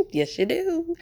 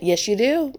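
First: Higher, exaggerated Midwest accent; mock Midwest accent. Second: Said in the usual way. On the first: Teasing Midwesterners who deny their accent, in mock Midwest accent. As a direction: tease with a hammed-up Midwest accent. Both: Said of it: "not this accent that I just did".

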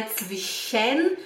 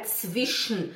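First: Zwischen as "tsvi-shen", E pronounced, rising at the end; wrong, full E. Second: Zwischen as "tsvish-n", no vowel before the n; E dropped. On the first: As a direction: say zwischen slowly with an open "-en" ending. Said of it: "não é zwischen". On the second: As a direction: go from the sh of zwischen straight into n. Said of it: "Risca o E". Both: Shown as a demonstration.

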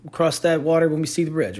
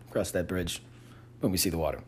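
First: Said in the usual way. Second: Softly muttered correction, much softer; quiet correction. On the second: Real, not acted. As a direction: mumble the fixed phrase under your breath. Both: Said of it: "did I say that backwards".

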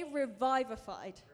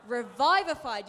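First: Said in the usual way. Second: Loud, punched Revivified; with passion. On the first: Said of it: "Say revivified". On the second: Shown as a demonstration. Preacher rallies the congregation with passion. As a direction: shout Revivified. like a rallying cry. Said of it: "You've gotta say it with some passion".

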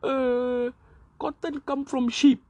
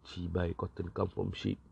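First: Much higher, louder, in a silly dim voice; mock idiot voice, pitched way up; dumb politician. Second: Mock disgusted repeat; scornful retort. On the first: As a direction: play a clueless MP spouting nonsense. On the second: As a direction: sneer the words back at the fool. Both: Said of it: "telling things like".

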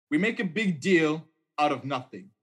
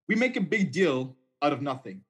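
Both takes have the same delivery.

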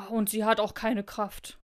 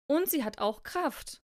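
First: Slow, lightly grumbled dismissal with falling end; a hint of a grumbly bear; grumbling bear. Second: Slow, emphatic rebuttal, lilting up; lightly voiced hare standing its ground; insistent hare. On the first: Bear doubting the snowflake's strength, mild slow grumble. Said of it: "brummte der Bär". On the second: Hare contradicting the bear, slow emphatic insistence. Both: A narrator's reading.

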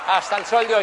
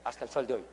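First: Hasta el sol de hoy declared loud, stress on sol; now proclaim it to the audience; loud ringing Hasta el sol de hoy, falling on sol; loud emphatic repeat. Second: Hasta el sol de hoy said low and soft, dropping away; soft low hasta el sol de hoy, falling on sol; quiet aside. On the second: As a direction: murmur it under your breath first. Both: Shown as a demonstration.

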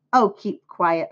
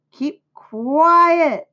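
First: Restrained telling-off at normal pitch; mild holler. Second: High, loud, drawn-out holler. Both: A narrator's reading. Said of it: "hollered Fern".

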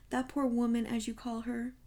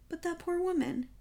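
First: Measured echo. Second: Much higher-pitched, dismayed objection; pleading protest. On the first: Poirot quotes his friend's phrase back, composed. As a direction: hand the phrase back, unmoved. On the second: Friend pleads with Poirot for the robbed wife, protesting. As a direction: protest on her behalf. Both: A narrator's reading.

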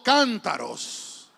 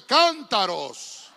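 First: Cántaros drawn out loud and slow, falling; call-and-response. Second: Cántaros shouted out slow, falling at the end; louder. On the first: Preacher leads the church in repeating, loud and slow. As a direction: model cántaros slowly for them to repeat. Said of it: "Diga conmigo". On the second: Preacher pushes the church to say it strongly, loud. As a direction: say cántaros fully loud now. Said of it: "dígalo fuerte". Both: Shown as a demonstration.

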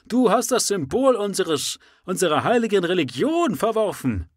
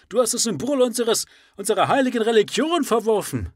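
First: High, loud accusing cry; shouting. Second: High, loud accusing shout; full shout. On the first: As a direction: hurl the accusation. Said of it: "schrie der Anhänger". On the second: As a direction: throw the charge with fury. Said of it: "Das kann besser interpretiert werden". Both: Acted.

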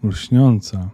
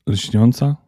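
First: Lśniąca, with a falling tune as the voice cracks; voice breaking. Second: Lśniąca? asked with a rising tune; startled question. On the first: Elf says Lśniąca, his voice breaking. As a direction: let the name Lśniąca break off in sorrow. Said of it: "głos mu się załamał". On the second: Elf asks about Lśniąca in a startled question. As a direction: elf hears the name and asks, surprised. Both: Acted.

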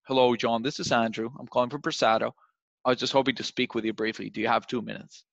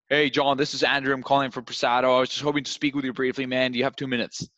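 First: Matched calm energy. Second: Rushed, overeager pitch; too fast, too much energy. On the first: Rep matching a calm prospect, steady and measured. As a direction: bring it down to the prospect's level. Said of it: "you should be like". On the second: Rep overwhelming a calm prospect with speed and energy. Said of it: "You're going too fast, too much energy". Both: Shown as a demonstration.

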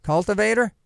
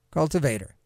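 First: Cultivator? tried with a questioning rise; unsure try at Cultivator with a rising tune; testing the stress. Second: Cultivator. said lower, softer, falling; settling the stress. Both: Shown as a demonstration. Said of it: "do the right emphasis on the syllable?".

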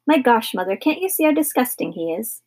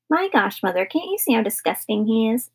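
First: Said in the usual way. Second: Mocking squeaky voice, pitched up at the start; high squeaky mimicry. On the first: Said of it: "mimicked Philip". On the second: Brother mimicking his sister's complaint, high and squeaky. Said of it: "mimicked Philip in a high, squeaky voice".

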